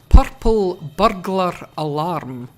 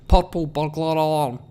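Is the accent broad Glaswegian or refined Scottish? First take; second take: refined; Glaswegian. First: It is said in a refined Scottish accent. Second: It is said in a broad Glaswegian accent.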